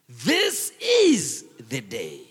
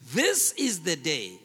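First: The stress falls on the word this. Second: The stress falls on the word day. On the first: This particular day is the one God made. "I want to change the emphasis. Say it this way" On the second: The verse as it is usually read. "It says"

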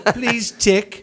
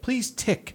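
First: It is said in a put-on London accent. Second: It is said in the speaker's own accent.

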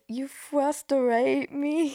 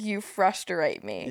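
First: It is said in an Elmer Fudd-like voice. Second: It is said in a normal voice.

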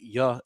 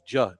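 First: The word starts with a 'y' sound. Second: The word starts with a 'j' sound. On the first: "They don't say yeah" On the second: "it's ja"

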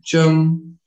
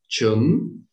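First: The pitch stays level through the word. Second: The pitch rises through the word. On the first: "would be the flat no tone" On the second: "would be with the rising tone"

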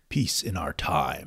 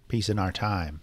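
First: It is said in a convincing Ultron voice. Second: It is said in a nerdy-sounding voice.

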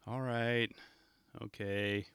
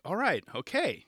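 First: It sounds reluctant, like a grudging kid. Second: It sounds confident, like we've got this.

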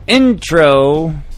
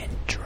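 First: The word is yelled loudly. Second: The word is whispered quietly. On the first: "You don't have to yell intro every time" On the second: "You said whisper it"

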